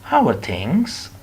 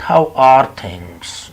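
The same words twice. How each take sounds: First: Said in the usual way. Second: "How are things?" louder, dragged very slow, each word pressed; overdone heavy "How are things?"; wrong stressed version. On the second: Shown as a demonstration.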